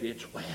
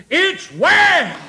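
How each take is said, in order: First: Very low and soft; hushed answer. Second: High, loud proclamation; preaching shout. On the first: Preacher voicing the woman's answer to Elijah, hushed. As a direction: drop right down to a quiet reply. First quiet answer, then shouted. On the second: Preacher proclaiming the woman's answer, shouted. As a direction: burst out with it at full voice. Same words repeated as shout. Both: Retold or imitated.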